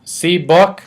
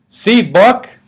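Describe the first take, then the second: First: Lightly voiced toddler, rising question; a hint of a small child showing off his book; toddler asking. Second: Put-on higher, louder toddler demanding attention; a small child pushing his book at everyone; insistent toddler. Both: A narrator's reading.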